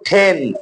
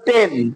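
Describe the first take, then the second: First: The t has a strong puff of air. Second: The t has no puff of air. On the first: "এখন করব" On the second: "আগে করছি আমরা"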